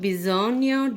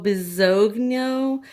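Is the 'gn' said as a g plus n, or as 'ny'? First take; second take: ny; g plus n. First: The gn is said as one 'ny' sound. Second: The gn is said as a hard g plus n. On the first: It follows the phonetic guide. The speaker calls it right. "but oh, bisogno di ... the G Ns make a different sound" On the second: It is read straight from the spelling. The speaker calls it wrong. "if you just saw this, you'd be like, well, oh, bisogno"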